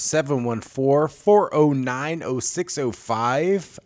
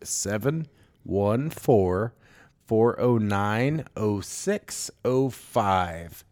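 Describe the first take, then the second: First: The number is said at normal speed. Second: The number is said more slowly.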